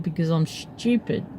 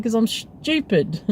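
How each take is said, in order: First: Soft, under-the-voice retort; quiet mumbled "stupid". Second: Slow, raised repeat of "stupid"; repeated for emphasis. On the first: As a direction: admit it quietly, half to yourself. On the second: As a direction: repeat it slower and clearer, stressing "stupid". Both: Retold or imitated. Repeats answer after being asked what.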